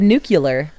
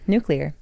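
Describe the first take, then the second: First: It is said as 'nucular', ending in 'cular'. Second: It is said as 'nuclear', ending in 'clear'. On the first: The speaker calls it wrong. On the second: The speaker calls it right.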